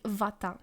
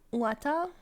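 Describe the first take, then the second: First: The word begins with a v sound. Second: The word begins with a w sound. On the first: The speaker calls it right. "In Polish, W is V. You say wata" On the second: The speaker calls it wrong. "So you don't say łata łata"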